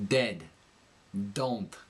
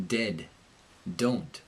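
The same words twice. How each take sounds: First: Dentalized D in "Dead. Don't", tongue against the teeth; New York accent, slightly nasal dental D on "Dead". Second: American D in "Dead. Don't", tongue behind the gum ridge; American accent. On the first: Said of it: "it kinda leans against the teeth". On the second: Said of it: "in the American accent". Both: Shown as a demonstration.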